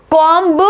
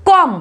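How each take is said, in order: First: कॉम्ब with the b sounded, "kom-buh"; wrong pronunciation demo. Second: कॉम ending cleanly on m; silent b demo. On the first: Teacher showing learners the mistake, mispronounced. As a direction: add a clear b to the end of कॉम्ब. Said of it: "नहीं बोलेंगे". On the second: Teacher correcting the word for learners, silent b. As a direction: say कॉम as "kom", no b. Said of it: "बी की sound नहीं आएगा". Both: Shown as a demonstration.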